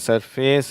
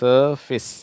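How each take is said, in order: First: The last syllable sounds like 'face'. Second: The last syllable sounds like 'fis'. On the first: The speaker calls it wrong. "இது சர்ஃபேஸ் இல்லை" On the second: The speaker calls it right.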